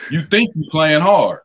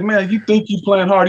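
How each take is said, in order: First: Slow, falling statement of doubt; You think you playing hard said slowly with a falling end; coach's flat statement. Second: Higher, questioning you think you playing hard; you think you playing hard raised as a question; coach's mocking question. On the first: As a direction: lay it down slowly, no question. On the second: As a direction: throw it back as a challenge. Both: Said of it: "He said".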